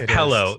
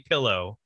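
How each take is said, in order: First: The first vowel sounds like 'eh'. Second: The first vowel sounds like 'ih'. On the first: Someone else says it this way. "He says pillow" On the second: This is how the speaker says it. "because I say pillow. As God intended"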